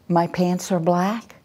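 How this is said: It is said hesitantly, rising like a question. The speaker is unsure and seeks approval. "when we have a passive voice, it's like"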